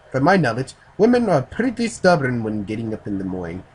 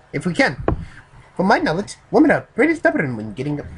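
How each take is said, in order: First: Lightly put-on Japanese accent; a first, milder try at a Japanese accent; attempted Japanese accent. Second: High, loud, badly faked Japanese accent; exaggerated Japanese accent. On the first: Reader voices the Japanese man on waking women, light Japanese accent. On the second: Reader retries the Japanese man's line, stronger Japanese accent. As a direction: push the Japanese accent harder, pitched way up. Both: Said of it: "I can't do a Japanese accent".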